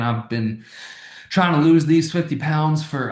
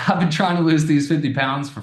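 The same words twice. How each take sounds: First: It is spoken in a country accent. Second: It is spoken in a plain accent.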